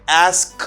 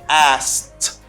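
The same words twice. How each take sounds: First: A k sound is pronounced before the t. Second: No k sound is pronounced before the t. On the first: The speaker calls it wrong. "It's hard and it's complicated. You can't say that" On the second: The speaker calls it right. "You don't pronounce K"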